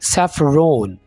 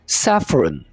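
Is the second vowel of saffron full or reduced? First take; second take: full; reduced. First: The second vowel is a full 'o' sound. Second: The second vowel is a short, reduced sound. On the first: The speaker calls it wrong. "इसको आपने ऐसे नहीं बोलना" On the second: The speaker calls it right. "तो कैसे बोलेंगे?"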